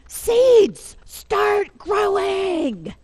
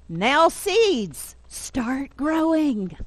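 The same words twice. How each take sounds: First: High, loud, long-drawn shout; storybook yell. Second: Higher, drawn-out storybook command; Toad commanding seeds. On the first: A narrator's reading. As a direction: yell it at the seeds, stretching every word. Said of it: "Then he begins to yell". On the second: Acted. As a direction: coax the seeds firmly, stretching the last words.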